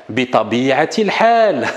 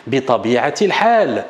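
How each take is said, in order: First: Said in the usual way. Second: "bi tabi'atil hal" said slowly, sinking on "hal"; slow model phrase. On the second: Shown as a demonstration. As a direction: read it out slowly for students to repeat. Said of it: "une autre formule".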